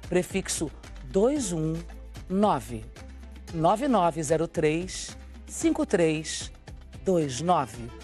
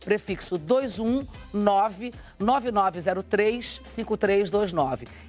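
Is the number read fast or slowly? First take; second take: slowly; fast. First: The number is read very slowly. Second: The number is read at a normal, faster pace.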